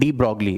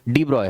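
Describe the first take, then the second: First: The surname is said with a clear g sound. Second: The surname is said without any g sound. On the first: The speaker calls it wrong. "इसे हम हिंदुस्तानी बोलते पढ़ते हैं de ब्रॉगली, लेकिन ये de ब्रॉगली नहीं है" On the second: The speaker calls it right. "डी ब्रॉय है"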